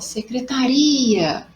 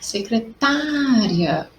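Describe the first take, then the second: First: The stress falls on the syllable ri. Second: The stress falls on the syllable ta. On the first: "o uri aí ficou mais forte" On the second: "qual foi aquela que deu aquele impulso mais forte? Foi o tá"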